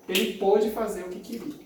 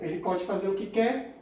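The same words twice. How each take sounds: First: "pôde" with a closed O, as in avô; closed vowel in pôde. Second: "pode" with an open O, as in pó; open vowel in pode. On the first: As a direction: say "pôde" with stressed closed O, past tense. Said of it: "pôde tá no pretérito perfeito". ("pôde" com o O fechado) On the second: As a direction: say "pode" with stressed open O, present tense. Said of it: "pode tá no presente". ("pode" com o O aberto) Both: Shown as a demonstration.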